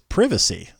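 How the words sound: It is said with a British pronunciation.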